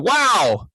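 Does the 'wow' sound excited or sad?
excited. The word sounds excited and positive. The listener rewards the speaker's good news. "if somebody told us something that was really encouraging and we wanted to give them a positive reward"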